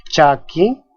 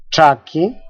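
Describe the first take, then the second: First: Said in the usual way. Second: "chaki" with the ch turned to a retroflex "tr"; variant CHA. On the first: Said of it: "la cha es pronunciada como cha". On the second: Shown as a demonstration. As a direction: say "chaki" starting almost like "traki". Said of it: "En otras variantes, la cha es pronunciada como cha".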